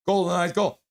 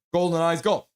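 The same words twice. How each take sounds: The two takes are said the same way.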